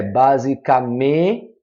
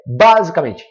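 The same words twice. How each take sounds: First: "basicamente" slowly, lingering on MEN; tônica no MEN. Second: "basicamente" with the stress thrown on the first A; wrong stress on BA. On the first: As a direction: stretch the syllable MEN in "basicamente", others split off. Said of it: "é o me que traz a maior força tônica". ("basicamente" devagar, alongando a sílaba MEN) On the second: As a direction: hit BA hard in "basicamente", rushing the rest. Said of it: "se o acento tá aqui no A". ("basicamente" com a tônica errada no BA) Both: Shown as a demonstration.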